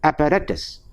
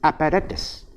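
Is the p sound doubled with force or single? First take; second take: single; single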